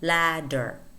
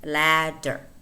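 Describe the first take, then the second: Both takes have the same delivery.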